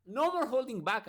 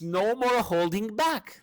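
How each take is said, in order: First: Said in the usual way. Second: Higher, louder, slow heroic line; hammed-up hero voice, slow and raised; champion quote voice. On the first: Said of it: "no more holding back, actually". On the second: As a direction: declare it like a heroine powering up. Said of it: "And then she says".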